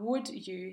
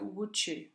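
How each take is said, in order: First: The d and y stay separate sounds. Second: The d and y merge into j.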